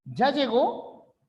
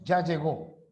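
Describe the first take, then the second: First: "¿Ya llegó?" slow, high, rising at the end; rising question. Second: "Ya llegó" lower, settling into a flat fall; falling answer. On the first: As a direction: ask it, lifting the last syllable up. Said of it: "Realizamos una pregunta". (pregunta con tono final ascendente) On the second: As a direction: answer it, dropping the tune. (respuesta con tono descendente) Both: Shown as a demonstration.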